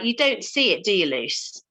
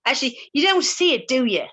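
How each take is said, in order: First: A hint of an Irish lilt, teasing; imitating Irish coach. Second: Mock Irish accent, higher and quicker; imitating Irish coach. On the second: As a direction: push the Irish lilt, quick and teasing. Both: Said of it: "please ignore my Irish accent".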